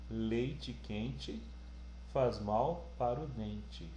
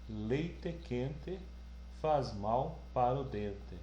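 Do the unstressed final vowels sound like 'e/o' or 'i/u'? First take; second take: i/u; e/o. First: Final vowels are reduced to i and u sounds. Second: Final vowels are pronounced fully as e and o. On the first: It sounds like a journalist's neutral delivery. The speaker calls it right. "o E vira um I, tá? O O vira um U" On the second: It sounds like a southern regional dialect. The speaker calls it wrong. "eu vou ler do jeito que está escrito"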